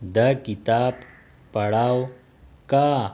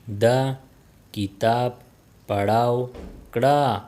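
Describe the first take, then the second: First: The final ending is shortened to ka. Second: The final ending is said in full as kra. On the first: This is how native speakers say it. "कड़ा will become का" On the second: This is the full careful form. "कड़ा will become का"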